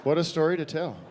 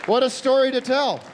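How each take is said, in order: First: Deflated. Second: High, loud "What a story to tell."; excited. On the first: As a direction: let the joy drain out. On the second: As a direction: gush over the story. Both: Acted.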